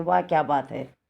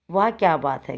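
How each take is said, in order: First: Said in the usual way. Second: Exclaimed. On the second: Shown as a demonstration. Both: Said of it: "क्या बात में प्रश्न नहीं पूछा गया".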